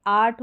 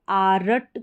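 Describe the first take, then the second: First: आर्ट with only a faint र; soft r. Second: आरट with a full rolled r between आ and ट; wrong full r. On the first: Teacher modelling the right आर्ट with a faint र. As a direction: say आर्ट with the र barely there. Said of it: "र का बिल्कुल हल्का सा sound आएगा". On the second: Teacher showing the wrong आरट with a full र. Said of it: "इसको आरट करके नहीं पढ़ सकते". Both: Shown as a demonstration.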